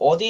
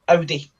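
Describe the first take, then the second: First: It is said the American way. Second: It is said the European way. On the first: "A lot of people call it Audi in America" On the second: "in Europe, it's Audi"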